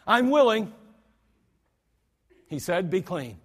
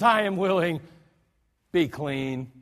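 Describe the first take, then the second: First: Indignant Jesus. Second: Compassionate Jesus. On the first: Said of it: "Jesus was indignant". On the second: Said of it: "filled with compassion". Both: Shown as a demonstration.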